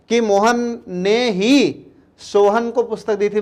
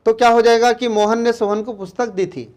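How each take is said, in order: First: ही held long and pressed, the whole sentence slowed; stress on ही. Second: Said in the usual way. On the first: Shown as a demonstration. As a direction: lean hard on ही so it means Mohan alone gave it. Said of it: "अब हम जोर दे रहे हैं". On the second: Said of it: "अगर ही ना लगाएं".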